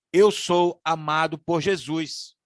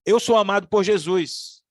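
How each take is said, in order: First: Slow, deliberate affirmation, each word placed; slow declaration. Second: Louder, pressing on sou; emphatic declaration. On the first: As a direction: declare it calmly as a creed. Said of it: "E eu tenho algumas sugestões aqui". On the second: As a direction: proclaim it with conviction. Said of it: "eu preciso lembrar". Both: Shown as a demonstration.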